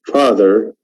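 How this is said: The r after the vowel is clearly pronounced. "In American accent, we have very clear re"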